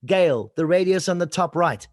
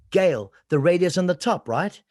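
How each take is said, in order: First: "top right" said as a statement, pitch going down; falling inflection. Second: "right" lifted at the end as a question; rising inflection. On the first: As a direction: bring "right" down to close the sentence. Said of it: "pitching, inflection, up and down". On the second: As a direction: check with the listener, pitch up on "right". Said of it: "same words, different meaning". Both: Shown as a demonstration.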